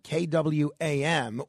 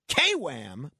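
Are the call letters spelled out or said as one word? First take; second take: letters; word. First: The call letters are spelled out one by one. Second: It is said as one word, Southern style.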